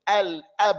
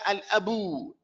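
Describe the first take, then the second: First: The b ends the word with no vowel after. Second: A vowel sound is added after the b. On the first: The speaker calls it right. "We're just going to merely separate between them" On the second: The speaker calls it wrong. "wala al abu"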